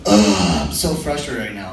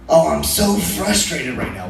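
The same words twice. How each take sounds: First: Groaned UGH, then lower weary complaint; low, quick exasperated sigh of a line; imitated frustration. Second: Drawn-out mock exasperation; slow, lightly hammed-up venting; imitated frustration. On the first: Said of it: "Whenever a girl starts off a sentence with". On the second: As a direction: stretch out SO and FRUSTRATED like a fed-up texter. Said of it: "she's like".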